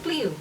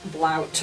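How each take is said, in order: First: The word is said with French pronunciation. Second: The word is said with another anglicized guess. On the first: The speaker calls it right. "it's French, it's a bliu" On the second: The speaker calls it wrong. "no idea how you pronounce that word"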